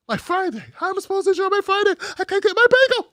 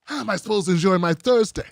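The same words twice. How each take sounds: First: Much higher, fast, whining voice; high-pitched mock tantrum; whiny spoiled complaint. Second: Said in the usual way. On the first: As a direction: whine like a spoiled child denied a treat. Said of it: "repeated as whine". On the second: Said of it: "repeated with Friday".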